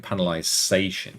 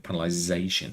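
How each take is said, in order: First: The consonant before -ation is an s sound. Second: The consonant before -ation is a z sound. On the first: The speaker calls it wrong. "You don't go" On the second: The speaker calls it right. "I use the Z because that's how you say it"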